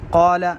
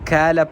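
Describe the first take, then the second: First: It starts with a deep throat 'q' sound. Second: It starts with a plain front 'k' sound. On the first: The speaker calls it right. "क़ाफ के बजाय" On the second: The speaker calls it wrong. "काफ पढ़ना"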